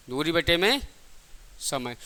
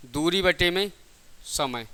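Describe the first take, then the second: No difference in how they are said.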